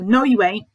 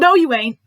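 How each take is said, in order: First: It is said sharply with a raised volume. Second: It is shouted at full volume. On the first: "he could have a raised volume and it could be a sharp tone" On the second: "You could shout and tell him"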